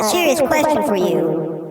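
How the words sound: It is said in a put-on funny voice.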